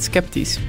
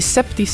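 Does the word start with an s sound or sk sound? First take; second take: sk; s. First: The word starts with an sk sound. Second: The word starts with a plain s sound. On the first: It means doubtful. The speaker calls it right. "in plaats van sceptisch" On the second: It sounds like the word for septic. The speaker calls it wrong. "Het doet me denken aan een sceptische put"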